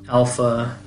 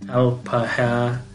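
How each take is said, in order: First: The word is said with two syllables. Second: The word is said with three syllables. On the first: This is the modern pronunciation. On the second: This is the old pronunciation.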